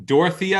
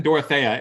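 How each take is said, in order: First: Dorothea as "dor-uh-THEE-uh"; long ee in Dorothea, "THEE-uh"; first pronunciation. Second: Dorothea as "dor-uh-THAY-uh"; second pronunciation. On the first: Co-host predicting a naming split, Dorothea as "dor-uh-THEE-uh". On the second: Co-host predicting a naming split, Dorothea as "dor-uh-THAY-uh". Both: Shown as a demonstration. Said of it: "is gonna be similar to Teferi and Teferi".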